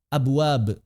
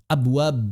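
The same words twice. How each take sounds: The two takes are said the same way.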